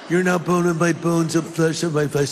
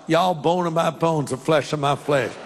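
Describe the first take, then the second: First: It is said in a Californian accent. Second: It is said in a Southern accent.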